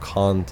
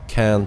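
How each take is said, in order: First: It is said with a British vowel. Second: It is said with an American vowel. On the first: "instead of" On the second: "I learned the the American English. That's why I say"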